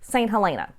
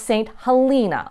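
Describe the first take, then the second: First: The E in Helena is short. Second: The E in Helena is long. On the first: The speaker calls it wrong. "you'll probably be tempted to call this Saint Helena. But it's not" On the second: The speaker calls it right. "It's pronounced Saint Helena with a long E"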